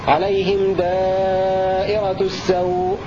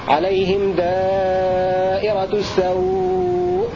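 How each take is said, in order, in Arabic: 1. يُمَدّ الحرف المدّ الأخير حركتين. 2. يُمَدّ الحرف المدّ الأخير أربع حركات. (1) "حركتين" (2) "أربع حركات"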